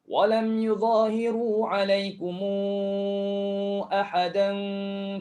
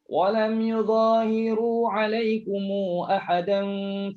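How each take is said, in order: First: The linking vowel after 'alaikum lasts four counts. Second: The linking vowel after 'alaikum lasts two counts. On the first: "Ini dah kena empat sebab bertemu hamzah ya" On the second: "Mim jamak silah dua harakat"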